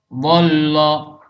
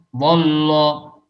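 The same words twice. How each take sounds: Both takes have the same delivery.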